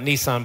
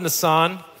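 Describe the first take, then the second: First: The word sounds like the car brand name. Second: The word does not sound like the car brand. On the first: It names a car. The speaker calls it wrong. "it's not Nisan, by the way, that's a car" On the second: It names a month. The speaker calls it right. "This is a month"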